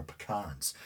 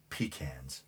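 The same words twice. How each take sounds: First: "pecans" said as puh-KAHNZ; "pecans" with a short first syllable, then a long "kahns"; puh-KAHNS pronunciation. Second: "pecans" said as PEE-kanz; "pecans" with an ee, like "pee cans"; PEE-cans pronunciation. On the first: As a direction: stress the second syllable of "pecans", with an ah. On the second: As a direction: stress the first syllable of "pecans", with a long ee. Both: Shown as a demonstration. Offers two pronunciations of pecans.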